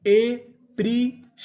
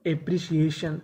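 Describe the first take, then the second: First: appreciation stretched slowly, higher and louder with a rise; slow drawn-out model word. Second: Said in the usual way. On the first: Shown as a demonstration. Teacher sounds out appreciation slowly for the class. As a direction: pull each syllable of appreciation out slowly. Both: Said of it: "तो पूरी meaning क्या बनी?".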